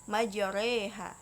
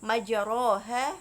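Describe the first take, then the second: First: The vowel after r sounds like 'e'. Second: The vowel after r sounds like 'a'. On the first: This is the recited form with imalah. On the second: This is the plain form.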